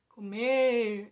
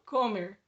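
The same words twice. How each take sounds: First: The stress is on the last syllable. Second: The stress is on the first syllable. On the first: The speaker calls it right. "então é no mer" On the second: The speaker calls it wrong. "Eu não falo comer, comer. Não é no começo que eu estou destacando"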